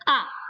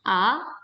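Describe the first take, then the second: First: The pitch falls sharply from high to low. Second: The pitch rises from mid to high. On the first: "nada keempat" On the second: "second tone, nada kedua"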